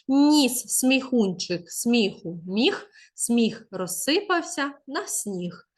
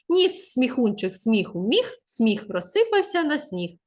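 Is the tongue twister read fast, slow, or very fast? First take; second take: slow; fast. First: It is read slowly and clearly. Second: It is read at a quicker pace. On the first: "спочатку треба прочитати повільніше" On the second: "потім пришвидшити"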